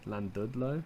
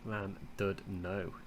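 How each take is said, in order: First: The last syllable sounds like 'lo'. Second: The last syllable sounds like 'no'. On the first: The speaker calls it wrong. "I want to say low at the end of there" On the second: The speaker calls it right. "but without the L"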